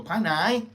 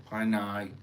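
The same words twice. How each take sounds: First: Pai nai, nai rising sharply higher and louder; proper Thai tone. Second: Pai nai said flat, no tone; flat wrong tone. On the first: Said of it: "You go". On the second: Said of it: "You don't do that". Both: Shown as a demonstration.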